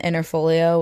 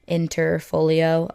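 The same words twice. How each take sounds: First: The word is said at normal speed. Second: The word is said slowly and carefully.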